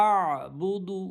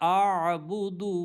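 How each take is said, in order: The two takes are said the same way.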